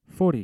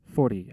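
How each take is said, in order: First: A higher, louder Italian salesman musing over the size. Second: Said in the usual way. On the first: A narrator's reading. Milanese salesman repeats the size to the narrator, musing, higher and louder. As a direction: weigh the number like a salesman sizing up a customer. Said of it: "he mused".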